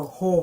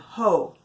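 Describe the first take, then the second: First: It is said in a deep voice. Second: It is said in a normal voice.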